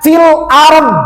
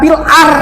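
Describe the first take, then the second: First: The final consonant is pronounced at the end. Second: The final consonant is dropped at the end. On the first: The speaker calls it right. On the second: The speaker calls it wrong. "bukan fil ar"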